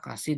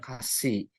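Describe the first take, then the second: First: The s sound is short. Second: The s sound is long. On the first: "S-nya pendek" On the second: Bland. "S-nya panjang"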